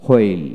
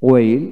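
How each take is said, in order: First: হোয়েল with an audible h first; হোয়েল starting on breathed hw; American h pronunciation. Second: ওয়েল starting on w, no h; ওয়েল with a plain w onset; British w pronunciation. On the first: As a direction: sound the h in হোয়েল. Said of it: "আমেরিকানে হ". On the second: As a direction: drop the h in ওয়েল. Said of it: "British উচ্চারণে". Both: Shown as a demonstration.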